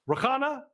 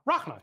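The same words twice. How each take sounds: First: "Rakana" in three syllables, questioning; tentative mispronunciation. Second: "Rachna" in two syllables, falling tone; corrected pronunciation. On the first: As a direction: try "Rakana" with a vowel after the k, unsure. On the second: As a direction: say "Rachna" as RAHK-nuh, settled. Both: Real, not acted. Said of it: "I think I got that right".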